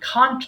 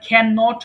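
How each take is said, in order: First: It is contracted into a single syllable. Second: It is said in full as two syllables. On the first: "এটাকে খান্ট বলবো" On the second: "আমরা ক্যান নট বলি"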